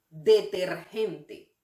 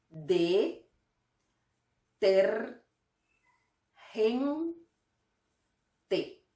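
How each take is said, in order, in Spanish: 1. Se dice de forma fluida a velocidad normal. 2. Se dice despacio, sílaba por sílaba.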